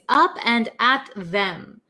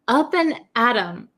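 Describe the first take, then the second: First: The last word is said in full with 'th'. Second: The last word is reduced, without the 'th'. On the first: "the actual word is up and at them" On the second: "We take off the T H sound"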